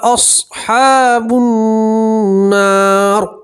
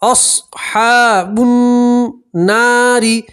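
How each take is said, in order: First: The last word ends on a full, heavy r. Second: The last word ends with a short i vowel.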